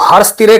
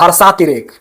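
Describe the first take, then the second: First: The vowel after 'harsh' is short. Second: The vowel after 'harsh' is long. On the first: The speaker calls it wrong. "तो हर्ष तिरेक नहीं होता है" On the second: The speaker calls it right. "होता है हर्षा तिरेक"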